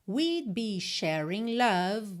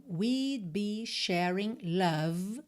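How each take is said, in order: Both takes have the same delivery.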